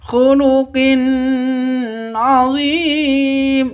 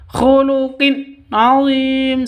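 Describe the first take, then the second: First: The n sound is drawn out through the nose. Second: The n sound is cut off abruptly. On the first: "tidak boleh didengungkan ... Juga sah, salah" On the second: "Tidak boleh disentak ... Salah"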